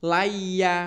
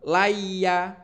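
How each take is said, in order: First: The m sound is dropped entirely. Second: The m sound is dropped entirely.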